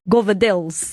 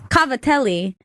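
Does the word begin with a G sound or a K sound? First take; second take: G sound; K sound. First: The word begins with a G sound. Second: The word begins with a K sound. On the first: This is a local accented version of the name. The speaker calls it wrong. "with the accent and then that bastardization" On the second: This is how it is said in Italy. The speaker calls it right. "a better way to pronounce it"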